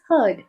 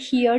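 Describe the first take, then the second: First: The vowel matches the vowel in bird. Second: The vowel differs from the vowel in bird. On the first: The speaker calls it right. "it's heard" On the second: The speaker calls it wrong. "H E A R D வந்து நம்ம heard ன்னு சொல்லுவோம்ல"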